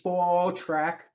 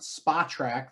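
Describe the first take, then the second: First: The first syllable sounds like 'sport' without the r. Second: The first syllable sounds like the word 'spa'. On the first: The speaker calls it right. "Spo, as in sport track" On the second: The speaker calls it wrong. "it's not Spa track"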